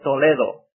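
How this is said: The name is said with a Spanish pronunciation. The speaker calls it right. "We call it"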